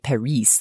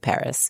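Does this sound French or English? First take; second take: French; English. First: The word is said the French way, with no final s. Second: The word is said the English way, with a final s. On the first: The speaker calls it wrong. "like you wouldn't say Paris, like that doesn't make sense" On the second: The speaker calls it right. "Your consonants win. You say Paris"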